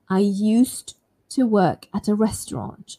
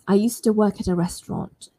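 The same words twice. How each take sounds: First: Slow and clear, with the D sound heard. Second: Fast, with the D sound dropped. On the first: "I'm going to say it's nice and slow" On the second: "if I want to speak quite fast, I can drop it"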